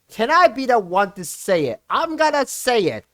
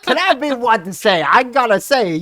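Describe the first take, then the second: First: It is read in his normal voice. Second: It is said in a Foghorn Leghorn voice.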